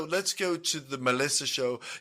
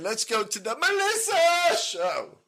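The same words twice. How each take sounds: First: The name is said flatly, without excitement. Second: The name is said with lively excitement. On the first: The speaker calls it wrong. "You don't say" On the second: The speaker calls it right. "you're supposed to say it like that"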